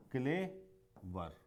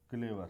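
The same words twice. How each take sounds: First: क्लेवर split slowly into क्ले, pause, वर; syllable by syllable. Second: Said in the usual way. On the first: Shown as a demonstration. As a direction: say क्लेवर as two separate beats. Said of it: "ये होता है two syllable वाले". (क्लेवर को दो हिस्सों में रुककर) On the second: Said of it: "जैसे एक वर्ड है".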